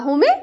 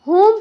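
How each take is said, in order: First: The word ends with an extra e vowel. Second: The word ends on the m sound. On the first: The speaker calls it wrong. "होमे मत पढ़िएगा, होमे जो है ना mistake हो जाएगा" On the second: The speaker calls it right. "इसे जो है ना आप होम पढ़िएगा"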